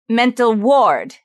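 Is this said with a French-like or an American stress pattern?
French-like. The stress pattern sounds French, not American. The speaker calls it wrong. "she said mental ward"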